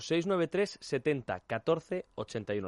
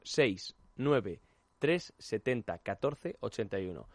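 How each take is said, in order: First: It is said at normal speed. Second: It is said slowly.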